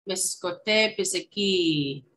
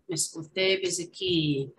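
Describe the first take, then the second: First: Miskote biziki said slowly, syllable by syllable for learners; slow teaching demo. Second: Said in the usual way. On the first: Shown as a demonstration. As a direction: draw out Miskote biziki for the class. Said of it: "teaching Cree word slowly". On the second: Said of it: "repeat at normal pace".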